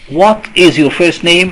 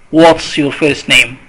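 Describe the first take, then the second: First: What and is are said as two full words. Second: What and is are joined into one short word. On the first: "Notice the difference between" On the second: "In spoken English, we say what's"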